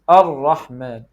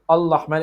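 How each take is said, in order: First: The consonant after the first vowel sounds like r. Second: The consonant after the first vowel sounds like l. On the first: The speaker calls it right. "it is Ar-Rahman" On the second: The speaker calls it wrong. "So it is not Al-Rahman"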